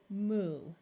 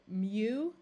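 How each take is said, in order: First: The vowel is said as plain 'oo'. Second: The vowel is said with a y-glide, 'yoo'. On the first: "That one we can say either way" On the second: "That one we can say either way"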